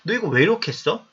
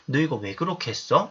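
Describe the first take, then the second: First: The question sounds somewhat angry and reproachful. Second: The question sounds gentle and curious, not angry. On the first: The speaker seems upset about what was done. "이런 것처럼 약간 화가 난 말처럼 들릴 수도 있잖아요" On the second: The speaker is simply asking why it was done. "우리가 이제 얘기할 때는"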